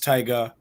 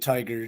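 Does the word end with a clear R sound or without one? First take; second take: without R; clear R. First: The word ends in a vowel without R. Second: The word ends with a strong R sound. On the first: The speaker calls it right. "it's it's it's [name]" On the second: The speaker calls it wrong. "people have been putting hard R's on the end of Tiger"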